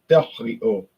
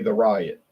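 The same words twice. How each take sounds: First: The name is pronounced in a French way. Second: The name is pronounced in an American way. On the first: "in France they say" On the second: "we in America say"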